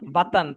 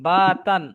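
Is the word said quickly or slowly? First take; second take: quickly; slowly. First: The word is said quickly and short. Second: The word is said slowly and drawn out. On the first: The speaker calls it right. "তাড়াতাড়ি বলতে হবে" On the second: The speaker calls it wrong. "এভাবে বলছেন বাতান, হয়নি আপনারটা"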